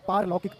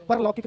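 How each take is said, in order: First: पारलौकिक with long "paar"; correct long first vowel. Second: परलौकिक with short "par"; wrong short first vowel. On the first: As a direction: say पारलौकिक as "paar-lau-kik". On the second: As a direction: say परलौकिक as "pur-lau-kik". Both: Shown as a demonstration. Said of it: "परलौकिक नहीं होता".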